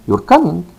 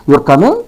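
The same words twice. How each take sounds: First: "You're coming" falling at the end, as a fact; statement intonation. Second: "You're coming" with a clear rise at the end; question intonation. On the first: Teacher contrasting first style for learners, falling statement intonation. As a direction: drop the pitch on "coming". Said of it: "So the first style". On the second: Teacher contrasting second style for learners, rising question intonation. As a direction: raise the pitch on "coming" to ask. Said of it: "This is question". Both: Shown as a demonstration.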